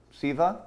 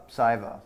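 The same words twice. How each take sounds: First: "Siva" said SEE-vah, rising; "Siva" as a questioning SEE-vah; questioned pronunciation. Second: "Siva" said SY-vah, falling; "Siva" with a long i, decided; settled pronunciation. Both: Real, not acted. Trying two readings of a name.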